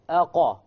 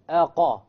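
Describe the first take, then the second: First: The q is followed by a full a vowel. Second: The same.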